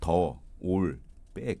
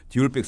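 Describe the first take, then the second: First: The first word sounds like "duh", with pauses. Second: The first word sounds like "dee", run together.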